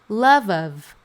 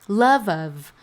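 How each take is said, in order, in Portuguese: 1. As duas palavras são ditas juntas, como se fossem uma só. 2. As duas palavras são ditas juntas, como se fossem uma só.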